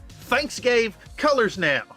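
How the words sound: It is said with lively feeling.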